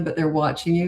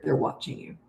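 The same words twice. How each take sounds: First: Said in the usual way. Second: Soft, breathy whisper that drives the point home; whispered emphasis. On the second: Real, not acted. Telling parents that young kids learn by watching, in a whisper. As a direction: drop to a hush so they lean in.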